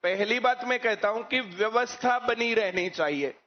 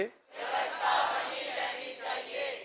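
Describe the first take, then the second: First: Said in the usual way. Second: Slow, soft whisper stressing व्यवस्था; slow hushed whisper as a rhetorical answer; whispered emphasis. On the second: Shown as a demonstration. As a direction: whisper it slowly, leaning on व्यवस्था, to drive the point home. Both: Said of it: "क्या होना चाहिए?".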